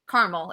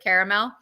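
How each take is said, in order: First: It uses the speaker's own nonstandard pronunciation. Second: It uses the commonly heard standard pronunciation. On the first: The speaker calls it wrong. "I say it wrong" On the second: The speaker calls it right. "all of you say it right"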